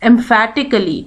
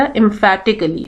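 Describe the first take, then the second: First: Said in the usual way. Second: "emphatically" said slowly, syllable by syllable, with ph as an f sound; careful pronunciation. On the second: Shown as a demonstration. Teacher showing students how to say "emphatically", slow and careful. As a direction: spell out "emphatically" slowly, em-FA-ti-cal-ly. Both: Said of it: "اس کی pronunciation صحیح سے سیکھیے گا بیٹا".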